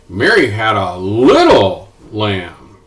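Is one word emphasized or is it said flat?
emphasized. One word is said with strong emphasis.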